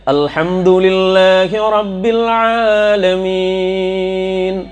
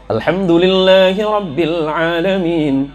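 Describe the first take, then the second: First: It is recited slowly and carefully. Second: It is recited at a medium pace. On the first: "Tertil itu seperti begini" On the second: "Ada tadwir"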